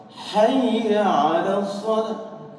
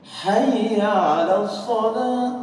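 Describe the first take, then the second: No difference in how they are said.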